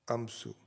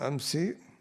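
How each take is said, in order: First: The word ends with a 'u' vowel. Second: The word ends with an 'i' vowel. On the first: It means any day that has passed. "some pronounce it as amsu" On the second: It means the day before today. "So this is مبني on the kasra here, the ending of it"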